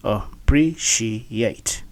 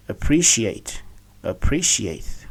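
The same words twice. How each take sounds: First: Appreciate broken into uh, pree, shee, yate; syllable by syllable. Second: Appreciate with PRE stressed; correct pronunciation. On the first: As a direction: sound out appreciate very slowly in separate syllables. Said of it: "let's, uh, see". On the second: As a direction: say appreciate joined up as uh-PREE-shee-ate. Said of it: "to be pronounced as". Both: Shown as a demonstration.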